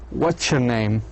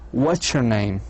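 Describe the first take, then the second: Both takes have the same delivery.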